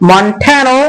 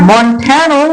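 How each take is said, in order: Both takes have the same delivery.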